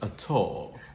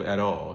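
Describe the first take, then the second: First: The T sound is crisp and clearly released. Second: The T sound is soft and not crisply released. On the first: "very clearly articulated t sound" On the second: "instead of"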